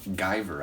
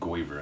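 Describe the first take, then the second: First: The first vowel sounds like 'eye'. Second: The first vowel sounds like 'oy'. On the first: The speaker calls it right. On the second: The speaker calls it wrong.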